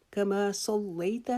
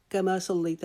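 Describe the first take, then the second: First: Slow correct reading. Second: Rushed reading. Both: Shown as a demonstration. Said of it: "اس کو جلدی سے کما صلیت نہیں پڑھیں گے".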